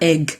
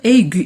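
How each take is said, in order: First: The word ends without a sounded u vowel. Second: The word ends with a sounded u vowel. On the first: The speaker calls it wrong. "et pas egg" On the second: The speaker calls it right. "prononcer séparément les deux voyelles et dire aigu"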